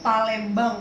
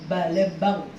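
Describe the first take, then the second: First: The word begins with a P sound. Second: The word begins with a B sound. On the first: This is the intended local pronunciation. "dia mau ngomong Palembang kan susah tuh" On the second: An Arabic speaker who cannot say P says it this way. "Balembang susah dia. Akan ngomongnya gitu karena huruf P itu"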